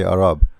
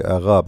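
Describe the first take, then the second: First: Arab without the French throaty r; non-French pronunciation. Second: Arabe with a throaty French r; French pronunciation. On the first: Teacher shows what the French don't say, non-French pronunciation. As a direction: say Arab with the r on the tongue. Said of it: "they don't say". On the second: Teacher contrasts how the French say it, French pronunciation. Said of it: "the French, they say". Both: Shown as a demonstration.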